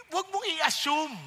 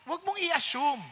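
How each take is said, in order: Both takes have the same delivery.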